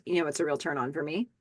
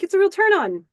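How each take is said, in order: First: Lower, softer and fast; low, soft come-on; sultry Lisa. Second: Much higher and louder, overeager; high, loud imitation of Warren; eager Warren. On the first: Acted. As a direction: purr it back at him. Lisa flirting back at Warren. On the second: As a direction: push it out like a nervous flirt. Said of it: "he's like".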